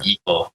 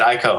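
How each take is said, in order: First: The first vowel sounds like 'ee'. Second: The first vowel sounds like 'eye'. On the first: This is the correct way. The speaker calls it right. "I think yeah, it's" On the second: This is the speaker's habitual way. The speaker calls it wrong. "but I've always just said Ico"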